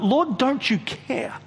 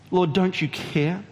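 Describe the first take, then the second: First: Accusing. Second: Said in the usual way. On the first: Acted. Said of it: "Martha accuses him". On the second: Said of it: "repeat, softer".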